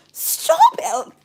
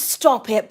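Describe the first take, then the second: First: High excited squeal. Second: Said in the usual way. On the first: Real, not acted. Reader squeals as a card flips over, high pitched.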